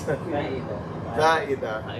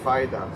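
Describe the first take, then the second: First: The word has an Arabic pronunciation. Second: The word has an Urdu pronunciation. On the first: "morph your Ar- Urdu pronunciation to make it Arabic" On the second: "In Urdu they say faida"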